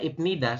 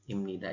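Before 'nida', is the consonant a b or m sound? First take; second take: b sound; m sound. First: A b sound comes before nida. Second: An m sound comes before nida. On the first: The speaker calls it wrong. "Tulisannya Ibnida" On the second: The speaker calls it right. "Tapi kita membacanya adalah"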